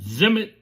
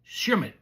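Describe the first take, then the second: First: The name begins with a 'z' sound. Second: The name begins with an 'sh' sound. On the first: This is how the speaker would naturally guess it. "I would pronounce it Zimit" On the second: This follows the listed pronunciation guide. "I'm looking at the pronunciation S H M I T"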